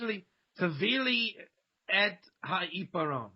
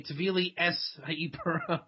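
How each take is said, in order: First: "et" in "tevili et ha'iparon" ends in a t; everyday Israeli pronunciation. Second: "es" in "Tevili es ha'iparon" ends in s instead of t; yeshiva pronunciation. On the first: Giving the everyday Hebrew example, "et" ending in t. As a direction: say "et" with a plain Israeli t. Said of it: "But in, in yeshiva". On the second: Showing yeshiva Hebrew, "es" with an s ending. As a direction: say "es" with the Ashkenazi s for "et". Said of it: "in yeshiva, she'd say". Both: Shown as a demonstration.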